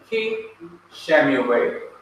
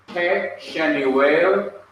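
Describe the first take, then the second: First: The prefix has a clear 'i' vowel. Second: The prefix has a short murmured 'e' vowel. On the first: The speaker calls it right. "becomes li, bi, and ki" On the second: The speaker calls it wrong. "two Shawas cannot stand together"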